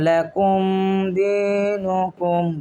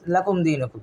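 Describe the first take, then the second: First: The m sound is held long and nasal. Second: The m sound is short and plain. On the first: The speaker calls it wrong. "আমরা কিন্তু এখানে বলতেছি না ... মিমে টানতেছি না" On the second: The speaker calls it right. "Just"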